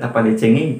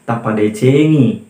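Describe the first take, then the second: First: The last word ends with an 'ay' sound. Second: The last word ends with an 'ee' sound. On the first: The speaker calls it wrong. "bukan tapade cengei" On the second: The speaker calls it right. "yang benarnya adalah tapade cengi"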